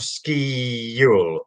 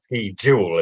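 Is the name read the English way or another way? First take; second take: another way; English. First: The name is not read the English way. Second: The name is read as English speakers would. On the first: "my pronunciation of Ski Uel" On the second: "as most Brits would probably read it"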